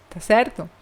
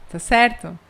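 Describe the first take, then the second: Both takes have the same delivery.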